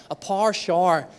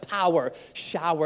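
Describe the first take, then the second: First: "par shower" said as par, shar; one syllable each in "par shower"; Northern Irish pronunciation. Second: "Power, shower" with two syllables each; careful English-style "Power, shower"; anglicized pronunciation. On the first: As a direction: say "shower" to rhyme with car. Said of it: "It's not". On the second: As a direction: sound out pow-er, show-er. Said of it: "It just feels weird". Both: Shown as a demonstration.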